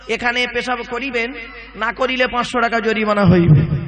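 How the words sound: The pause comes before 'না'.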